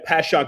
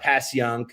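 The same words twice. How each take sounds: First: It is said with the local South Philly pronunciation. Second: It is said with the standard outside pronunciation. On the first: The speaker calls it right. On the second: The speaker calls it wrong.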